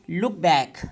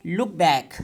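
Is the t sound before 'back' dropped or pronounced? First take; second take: dropped; dropped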